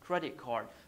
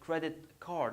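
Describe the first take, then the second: First: The words join as one stressed unit. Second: Each word is stressed and said separately. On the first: The speaker calls it right. "I say credit card" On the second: The speaker calls it wrong. "I don't say credit card"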